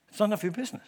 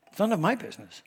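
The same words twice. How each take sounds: First: Said in the usual way. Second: "my" lifted and stressed. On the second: Shown as a demonstration. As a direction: put the weight on "my". Corrects "your" to "my.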